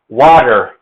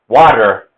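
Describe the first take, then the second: First: It has an American accent with a d-like t. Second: The same.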